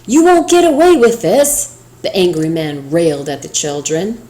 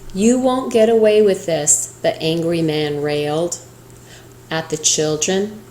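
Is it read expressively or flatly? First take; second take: expressively; flatly. First: It is read with lively, angry expression. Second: It is read in a flat, plain way.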